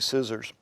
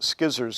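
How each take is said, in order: First: The word begins with a plain s sound. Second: The word begins with a hard sk sound.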